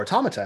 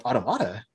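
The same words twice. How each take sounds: First: Automata stressed on the TOM, au-TOM-a-ta; alternative pronunciation. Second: Automata stressed on the MA, au-to-MA-ta; alternative pronunciation. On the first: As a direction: say Automata with the second syllable stressed. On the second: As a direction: say Automata with the third syllable stressed. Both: Shown as a demonstration. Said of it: "however you wanna say it".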